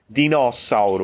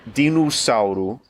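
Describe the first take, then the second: First: The O vowel is said open. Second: The O vowel is said closed. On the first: This is how the word is actually said. "o O fica mais aberto. ... é dinossauro" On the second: This is what the usual rule predicts. "fechamos o O. ... Devia ser dinossauro"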